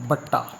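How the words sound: The word begins with a b sound. "Malwai 'ਚ ਕੀ ਕਹਿੰਦੇ ਨੇ"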